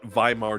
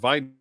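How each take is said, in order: First: The name begins with a V sound. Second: The name begins with a W sound. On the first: "why I'm saying with a V" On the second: "why we're not saying Weimar"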